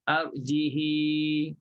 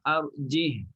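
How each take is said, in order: First: The final h carries a lengthened i vowel. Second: The final h is silent, with no vowel. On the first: This is the Warsh reading. "hidupkan ha dan silahkan dia" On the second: This is the Hafs reading. "baca dengan matikan ha"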